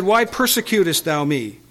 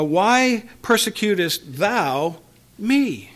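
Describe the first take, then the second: First: Said in the usual way. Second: Slow, each word set apart, weight on "thou" and "me"; stress on THOU and ME. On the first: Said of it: "The voice said". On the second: Shown as a demonstration. Preacher shows the question is personal, stressing "thou" and "me". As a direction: draw out "thou", pause, then land high on "me". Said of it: "the question has a personal element".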